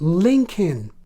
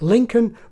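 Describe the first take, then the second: First: The second vowel is the short kit vowel. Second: The second vowel is a neutral schwa. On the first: The speaker calls it right. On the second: The speaker calls it wrong.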